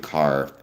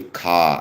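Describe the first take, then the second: First: The final r sound is pronounced. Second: The final r sound is dropped. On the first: "I can pronounce the letter R though" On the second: "I don't say ka"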